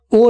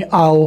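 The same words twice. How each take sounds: First: «ओ» as a bare single o, no a glide; the flat «ओ» to avoid; wrong plain o. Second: «आओ» with a full a glide before o, not a bare «ओ»; aao not o. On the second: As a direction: stretch «आओ» from a into o. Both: Shown as a demonstration. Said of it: "ओ नहीं बोलेंगे".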